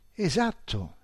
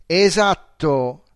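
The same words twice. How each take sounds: First: Said in the usual way. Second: Much louder, slow drawn-out word; exclaimed. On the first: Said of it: "dissi, colpito dalla sua competenza". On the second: A narrator's reading. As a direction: stretch it out in triumph. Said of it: "esclamò".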